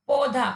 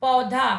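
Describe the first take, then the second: First: पौधा said as पोधा with o; wrong pronunciation. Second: पौधा with an open au; correct pronunciation. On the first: Teacher showing children the wrong form, o not au. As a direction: say पौधा with a plain o sound. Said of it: "इस शब्द का गलत उच्चारण है". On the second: Teacher showing children the right form, open au. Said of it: "उसका शुद्ध उच्चारण होगा". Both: Shown as a demonstration.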